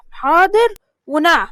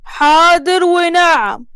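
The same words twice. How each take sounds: First: Said in the usual way. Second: حاضر ونعم said very slowly, each word pressed; slow drilled reply. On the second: Shown as a demonstration. Foreman drilling the girl in the proper answer, slow and pressed. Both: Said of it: "تقولي حاضر ونعم وبس".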